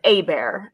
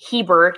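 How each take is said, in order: First: The name is said with a French-style pronunciation. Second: The name is said with an English-style pronunciation. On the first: The speaker calls it right. "it's Abear" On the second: The speaker calls it wrong. "we don't pronounce Hebert"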